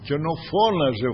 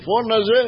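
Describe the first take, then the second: First: Said in the usual way. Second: Plain. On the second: Acted. Preacher repeats word, rising.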